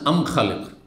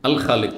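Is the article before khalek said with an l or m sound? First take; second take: m sound; l sound. First: The article is said with an m sound. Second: The article is said with an l sound. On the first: This is the Yemeni dialect form. "ইয়ামানের ভাষা" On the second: This is the common Arabic form. "আল দিয়ে বলেন"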